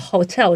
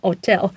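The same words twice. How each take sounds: First: It is said with the H sound pronounced. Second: It is said in a French accent, H dropped.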